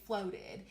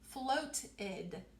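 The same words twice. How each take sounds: First: It is said casually with a soft T. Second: It is stretched out with a clear T. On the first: "But when we talk, we say floated" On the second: "if I really stretch it out and say all of those sounds ... I would really make that T sound"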